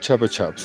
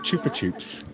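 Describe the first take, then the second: First: The name is said in an English style. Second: The name is said in a Spanish style. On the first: This is the usual local way of saying it. The speaker calls it wrong. "as we call them" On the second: This matches the original word meaning suck. The speaker calls it right. "they're called Chupa Chups"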